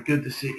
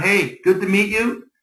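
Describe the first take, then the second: First: Very soft, low, half-swallowed greeting; weak, low-energy pleasantry; meek greeting. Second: Upbeat greeting with a lifted ending; strong, engaged hello; confident greeting. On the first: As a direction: say it timidly, barely putting it out. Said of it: "it's gonna show". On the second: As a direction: greet them boldly, full of presence. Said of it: "Walk around". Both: Shown as a demonstration.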